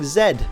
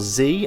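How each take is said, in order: First: The letter is said the British way, 'zed'. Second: The letter is said the American way, 'zee'.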